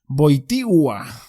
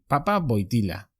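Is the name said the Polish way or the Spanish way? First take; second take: Polish; Spanish. First: The name is said with the accented Polish L. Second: The name is said with a plain Spanish L. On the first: "cuando se pone el acento en la L es Wojtyła" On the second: "el apellido polaco que me sonaba a mí, el Papa, siempre aquí"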